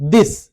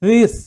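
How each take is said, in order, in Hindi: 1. th एक कठोर stop ध्वनि है। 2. th एक नरम, गूंजने वाली फ्रिकेटिव ध्वनि है। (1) "हम इसमें थे और द प्रोनाउंस जरूर कर रहे हैं जो कि गलत है" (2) "एक्चुअल में ये साउंड है क्या?"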